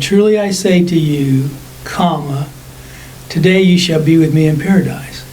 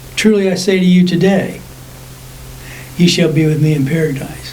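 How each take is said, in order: First: The break comes before the word today. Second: The break comes after the word today.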